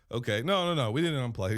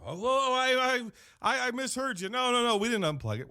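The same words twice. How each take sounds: First: Said in the usual way. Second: Higher, stammering nervous cover-up; flustered backpedal. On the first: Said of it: "And so I'm like". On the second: Retold or imitated. Manager lying to corporate on phone, flustered high. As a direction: squeak out a guilty denial. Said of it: "And I go".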